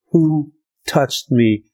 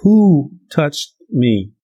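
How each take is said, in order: First: Slow, searching question; a slow question from Jesus. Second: Jesus asking again, more insistent; slow insistent Jesus. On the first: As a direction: ask slowly, as if you felt it. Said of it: "And Jesus said". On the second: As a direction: press the question again, slowly. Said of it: "And Jesus says". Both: Retold or imitated.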